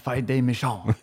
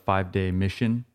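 First: The last word has a French-accented pronunciation. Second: The last word has a plain English pronunciation. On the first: "Horrible French accent" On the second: "I think that's how you pronounce it"

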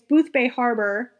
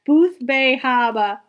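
First: It is said in a standard accent. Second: It is said in a local Maine accent.

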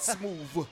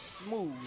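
First: The word ends with a v sound. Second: The word ends with a th sound. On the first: The speaker calls it wrong. "not Smooth" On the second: The speaker calls it right. "it's Smooth with a TH"

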